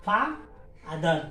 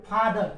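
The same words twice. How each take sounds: First: "फा, अदर" split in two with a pause; syllable by syllable. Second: Said in the usual way. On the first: Shown as a demonstration. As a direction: break it into two beats, "फा" then "अदर". ("फा, अदर" को दो हिस्सों में रुककर बोलें) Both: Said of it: "इसमें दो सिलेबल है".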